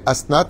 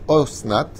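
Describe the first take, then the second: First: The first vowel sounds like 'a'. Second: The first vowel sounds like 'o'. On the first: "c'est comme ça qu'il faut le prononcer" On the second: "on peut le prononcer Osnat"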